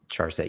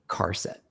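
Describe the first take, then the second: First: The word begins with a soft ch sound. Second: The word begins with a hard k sound.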